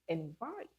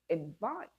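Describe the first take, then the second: First: The stress is on the second syllable. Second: The stress is on the second syllable.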